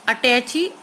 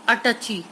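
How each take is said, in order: First: अटैची said with a clear ai; correct word read out. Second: अटची said short, no ai; wrong word read out. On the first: Teacher reading the right word to pupils, ai clear. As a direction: stress the ai of अटैची. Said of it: "अटैची जो है वो सही word है". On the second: Teacher reading the wrong word to pupils, clipped. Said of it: "अटची गलत word है". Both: Shown as a demonstration.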